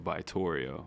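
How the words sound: The name is said with an American pronunciation. "American, you know, way of saying it"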